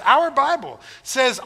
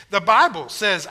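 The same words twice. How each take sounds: First: "our" stressed higher and slower. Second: Said in the usual way. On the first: Shown as a demonstration. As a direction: lean on "our" to claim it.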